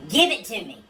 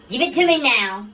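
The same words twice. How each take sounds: First: Urgent but barely raised plea; a hint of a scream, holding back; mild start of a scream. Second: Louder, higher demanding yell on now; screaming. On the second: Acted. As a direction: shout the now out, pushing hard. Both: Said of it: "A wife screams".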